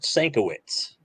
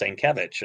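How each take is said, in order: First: The name ends with a 'witz' sound. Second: The name ends with a 'vich' sound. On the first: The speaker calls it wrong. "I used to pronounce it Sankowitz" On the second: The speaker calls it right. "that it's Sankevich"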